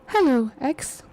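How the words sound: It is said in a put-on Angela voice.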